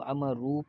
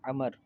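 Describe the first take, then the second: First: The name ends with an added 'oo' vowel. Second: The name ends on the consonant 'r'. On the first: The speaker calls it wrong. "बाज़ इसको अमरू पढ़ते हैं ... तो ये गलत है" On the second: The speaker calls it right. "लफ्ज़ है अमर है ... इसको पढ़ा नहीं जाएगा"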